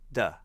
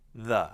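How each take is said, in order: First: The word begins with a D-like sound. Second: The word begins with a soft TH sound. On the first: The speaker calls it wrong. "students will say duh" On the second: The speaker calls it right. "We want the T H sound"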